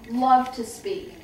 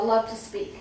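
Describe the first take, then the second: First: Slow, with weight on loved; repeating that her father loved to speak, stressing loved; emphatic repeat. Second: Said in the usual way. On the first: Shown as a demonstration. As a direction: lean hard on loved, slowing down. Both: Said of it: "repeated for emphasis".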